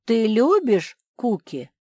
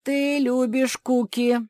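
First: «любишь» stressed with a falling question tune, slow and loud. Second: «Ты» stressed first, slow and high, stated as fact; statement. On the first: The ant asks Mafi his first test question. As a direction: ask it as a real question. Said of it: "Мой первый вопрос". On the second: The ant sets the trap question for Mafi. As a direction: state it, don't ask it. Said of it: "начал Игнатий". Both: Acted.

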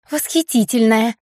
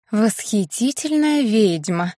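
First: Quick squeaky correction in a put-on voice; squeak. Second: Slow, drawn-out self-praise in a put-on voice; reminding witch. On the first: Blair ducking the thrown glass, squeaking her title. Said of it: "пискнула Блэр". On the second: Witch Blair correcting Colton on her title, slow and smug. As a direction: savour each word like a proud title. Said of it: "напомнила Блэр". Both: A narrator's reading.

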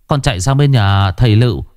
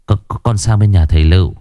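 First: Panting. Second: Stuttering, fast; stammering. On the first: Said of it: "thở hổn hển". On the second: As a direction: trip over the words. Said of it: "nó lắp bắp". (lắp bắp nhanh) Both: A narrator's reading.

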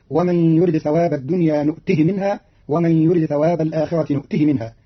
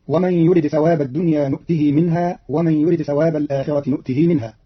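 First: "نؤته" as nu'tihi with a short final i; don't lengthen the hi of "نؤته" before "منها"; lightened "نؤته", no long ee on the pronoun; shortened pronoun vowel. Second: Said in the usual way. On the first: Shown as a demonstration. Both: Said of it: "بحذف الصلة لأجل التخفيف".

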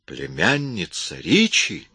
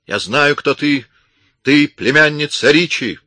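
First: Slow, stunned question; can't believe what he heard; astonished exclamation. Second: High, loud accusing yell, stress on ты; shouting accusation. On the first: Man stunned by the accusation, astonished. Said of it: "воскликнул Эмис". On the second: Armed woman exposing the intruder, shouting. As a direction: hurl the accusation. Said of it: "закричала она". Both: A narrator's reading.

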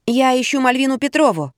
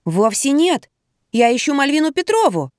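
First: Higher-pitched, polite explanation; explaining. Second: Mildly indignant, higher-pitched protest. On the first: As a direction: state calmly whom you are looking for. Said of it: "объяснила я". (объясняя, чуть выше обычного) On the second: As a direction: object with a touch of indignation. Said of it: "возмутилась я". (с лёгким возмущением, повысив тон) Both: A narrator's reading.

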